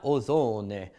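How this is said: It is pronounced like an Italian word. The speaker calls it wrong.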